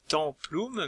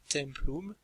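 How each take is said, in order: First: The first vowel is nasalized. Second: The first vowel is oral, not nasalized. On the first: The speaker calls it wrong. "on ne dit pas templum" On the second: The speaker calls it right. "Pas de nasalisation"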